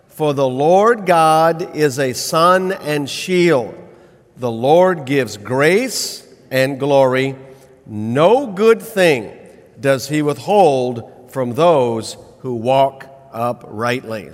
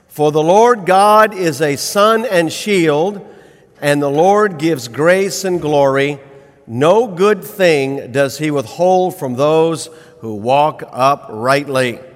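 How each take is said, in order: First: It is recited a little more slowly. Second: It is recited at a normal pace.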